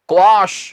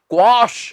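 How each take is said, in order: Both takes have the same delivery.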